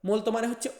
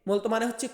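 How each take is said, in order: No difference in how they are said.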